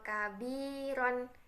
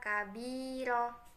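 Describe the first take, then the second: First: The word ends with an n sound. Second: The word ends with a long vowel.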